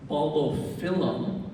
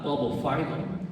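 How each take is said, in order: First: Bulbophyllum with "phyllum" said FILL-um; short-i pronunciation. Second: Bulbophyllum with "phyllum" said FYE-lum; long-i mispronunciation. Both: Shown as a demonstration. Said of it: "and not bulbophyllum".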